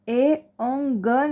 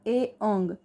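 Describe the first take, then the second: First: The final consonant is followed by a full vowel. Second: The final consonant is said bare, without a vowel. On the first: The speaker calls it wrong. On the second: The speaker calls it right.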